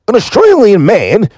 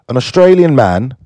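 First: It is said in a put-on Australian accent. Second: It is said in the speaker's usual accent.

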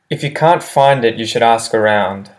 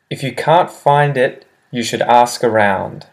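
First: The sentence is said at a quick pace. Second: The sentence is said at a slower pace.

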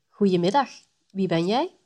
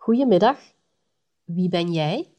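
First: It is said a bit faster. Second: It is said slowly.

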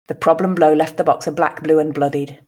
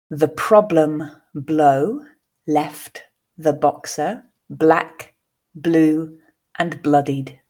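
First: The sentence is read at a natural pace. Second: The sentence is read slowly. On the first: "the second at a more natural pace" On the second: "the first time slowly for you to grasp the meaning"

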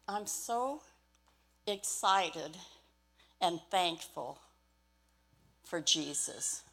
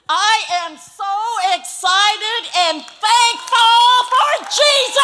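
First: It is said flatly, with little energy. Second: It is said loudly, with lots of energy.

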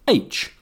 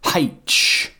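First: The letter name starts with a vowel. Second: The letter name starts with an h sound. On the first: This is the traditional form. "The traditionally correct pronunciation is H without the aspiration" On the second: This form is linked to regional accents. "more and more people are saying H"

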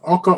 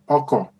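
First: Both syllables are on a level mid pitch. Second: The second syllable drops to a low pitch. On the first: It means husband. "Oko means husband" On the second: It means vehicle. "When you pronounce Oko like this, ... That's a vehicle"

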